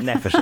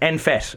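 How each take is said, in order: First: It begins with a plain syllable, neff. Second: It begins with the letter N spelled out. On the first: The speaker calls it wrong. "not Neffet, and never has been" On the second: The speaker calls it right. "It is Enfet"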